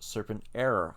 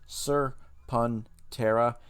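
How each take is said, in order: First: The name ends with an 'error' sound. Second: The name ends with a 'tera' sound. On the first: The speaker calls it wrong. "a lot of people are mispronouncing it with Serpent Error" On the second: The speaker calls it right. "it shows you how to pronounce it"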